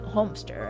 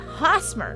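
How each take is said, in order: First: The M sound comes before the S. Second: The S sound comes before the M. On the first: The speaker calls it wrong. "I've been transposing the M and the S" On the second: The speaker calls it right. "It should be Hosmer"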